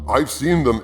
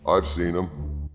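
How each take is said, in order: First: It is said with lively excitement. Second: It is said flat and resigned. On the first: The speaker is enthusiastic about it. "exclamation point" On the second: The speaker is reluctant to comment. "a very, very guardedly neutral statement"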